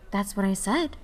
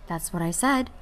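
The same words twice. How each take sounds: First: Even voice. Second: Said in the usual way. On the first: A narrator's reading. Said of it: "it replied in an even voice".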